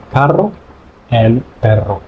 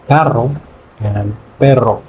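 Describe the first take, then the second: No difference in how they are said.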